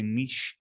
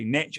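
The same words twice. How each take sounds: First: It is said with a European pronunciation. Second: It is said with an American pronunciation.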